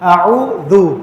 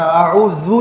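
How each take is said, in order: First: The middle consonant is a soft 'th' sound. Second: The middle consonant is a hard 'z' sound. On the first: The speaker calls it right. "इसको दाल के साथ पढ़ना" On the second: The speaker calls it wrong. "इसको सख्ती के साथ नहीं पढ़ना, आऊजू नहीं करना"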